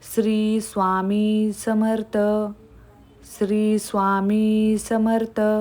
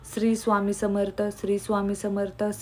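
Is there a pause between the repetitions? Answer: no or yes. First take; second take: yes; no. First: A short pause follows each repetition. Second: The repetitions run on with no pause between. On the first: The speaker calls it right. "एक वाक्य उच्चारल्यानंतर थोडं थांबायचं आहे" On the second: The speaker calls it wrong. "ते पण अशा करायच्या नाहीत"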